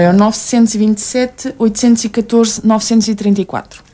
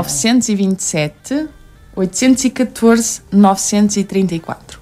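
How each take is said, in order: First: The number is said quickly. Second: The number is said slowly.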